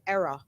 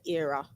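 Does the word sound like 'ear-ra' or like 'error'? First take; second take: error; ear-ra. First: The word sounds like 'error', London style. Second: The word sounds like 'ear-ra', not London style. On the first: "I'm from London, so we pronounce it error" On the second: "We don't say era"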